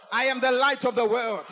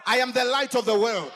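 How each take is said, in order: Both takes have the same delivery.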